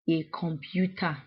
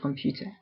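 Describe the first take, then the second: First: An extra vowel is added before the k. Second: It starts directly with the k consonant. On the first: "We would say in the pronunciation, we would say a computer" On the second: "the English word computer"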